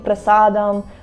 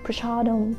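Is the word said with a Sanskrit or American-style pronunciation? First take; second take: Sanskrit; American. First: It is said with a plain s sound. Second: It is said with an American sh sound.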